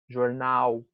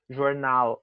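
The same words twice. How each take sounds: First: The final L is said as a U sound. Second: The final L is said as an L sound. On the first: "é um som de U que a gente faz no final" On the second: "a gente não faz jornal"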